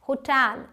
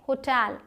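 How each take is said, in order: The two takes are said the same way.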